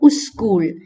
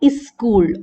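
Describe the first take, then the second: First: A u vowel is added before the s. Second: An i vowel is added before the s. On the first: "or uskul" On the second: "South Asians have the tendency to pronounce it as iskul"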